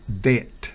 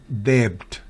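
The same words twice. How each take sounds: First: No b sound is heard at all. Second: A b sound is heard near the end. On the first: The speaker calls it right. "B es muda en debt" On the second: The speaker calls it wrong. "no es debt"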